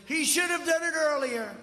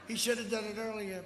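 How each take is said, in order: First: Higher and louder mocking quote; mock complaint. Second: Said in the usual way. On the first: Speaker mimics Biden's criticism for the crowd, loud mock. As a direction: belt out the opponent's gripe. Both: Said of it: "and he said".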